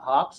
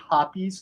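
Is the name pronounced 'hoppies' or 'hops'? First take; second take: hops; hoppies. First: The name is pronounced as 'hops'. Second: The name is pronounced as 'hoppies'. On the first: The speaker calls it wrong. "not hops" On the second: The speaker calls it right. "it is actually hoppies"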